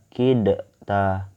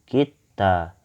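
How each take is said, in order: First: The d is sounded separately before the t. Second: The d is merged directly into the t. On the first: The speaker calls it wrong. "nggak dibaca kidta" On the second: The speaker calls it right. "tapi kita. Kita masukkan langsung ke sini ya"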